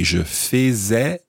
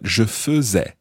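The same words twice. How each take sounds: First: The first syllable has a full, unreduced vowel. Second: The first syllable is reduced, as in faisons. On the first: The speaker calls it wrong. "we don't say je faisais" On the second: The speaker calls it right. "that same pronunciation of the nous faisons"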